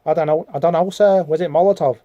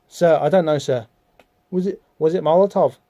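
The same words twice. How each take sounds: First: Put-on Liverpudlian accent. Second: Said in the usual way. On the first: Schoolboy [name] answers his teacher, put-on Liverpool accent. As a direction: do a rough, put-on Scouse. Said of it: "probably talks like, um, one of the Beatles". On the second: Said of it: "Dane probably talks like".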